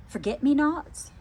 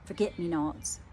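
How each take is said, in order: First: "Forget me not?" rising high on "me" and the end, as a question; "Forget me not?" puzzled and rising; questioning tune. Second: "Forget me not." low, quiet, falling to a close; "Forget me not." as a soft conclusion; settled statement. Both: Shown as a demonstration. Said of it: "I'm hearing".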